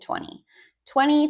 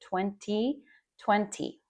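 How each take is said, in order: First: The T after the N is dropped. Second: The T after the N is clearly pronounced. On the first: This is how people talk in casual real life. "or you don't say the T" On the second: This is the form taught in class. "I didn't say twenty twenty"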